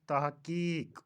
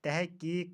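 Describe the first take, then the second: First: तहक़ीक़ said tah-qeeq; तहक़ीक़ as tahqeeq; correct pronunciation. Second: तहक़ीक़ said teh-qeeq; तहक़ीक़ as tehqeeq; mispronunciation. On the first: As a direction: say तहक़ीक़ with clear a before h. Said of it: "सही तलफ़ुज़ तहक़ीक़". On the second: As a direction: say तहक़ीक़ with e before h. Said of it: "का सही तलफ़ुज़". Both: Shown as a demonstration.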